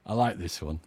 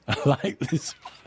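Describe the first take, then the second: First: Said in the usual way. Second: Chuckling through the words; amused, with a laugh breaking in. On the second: Real, not acted. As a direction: say it while laughing at the joke. DJ repeats line while laughing.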